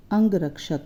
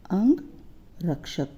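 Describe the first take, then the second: First: Said in the usual way. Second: अंगरक्षक drawn out slowly, syllable by syllable; slow careful reading. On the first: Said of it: "आगे जो मैंने शब्द लिखा हुआ है". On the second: Shown as a demonstration. Teacher reads the word slowly for pupils to follow. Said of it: "अंग हो गया शरीर".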